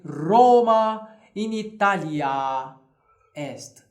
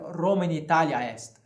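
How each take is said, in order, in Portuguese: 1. A última vogal de Italia é longa. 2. A última vogal de Italia é curta. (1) "Então eu direi" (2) "Eu não posso dizer"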